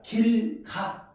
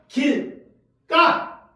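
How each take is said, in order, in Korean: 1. 중간 자음은 평음이에요. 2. 중간 자음은 경음이에요. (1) "길가 이렇게 발음 안 해요?" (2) "뭐라고 한다? 길가 이렇게 발음하죠?"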